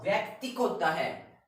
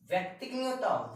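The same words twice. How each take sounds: First: Higher and louder, stress on होता; emphatic right form. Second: नहीं punched much higher and faster; emphatic correction. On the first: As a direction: assert the right व्यक्तिक firmly. (ज़ोर देकर सही रूप बोलिए) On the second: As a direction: strongly reject the wrong व्यक्तिक, hitting नहीं. (ऊँची आवाज़ में ज़ोर से "नहीं") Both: Shown as a demonstration.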